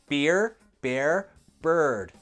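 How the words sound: An American accent with strongly pronounced R sounds. "In American English, the R sound would be more er"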